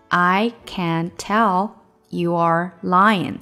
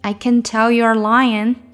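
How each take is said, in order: First: "You are" is said as two separate full words. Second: The words are linked tightly into one contracted form.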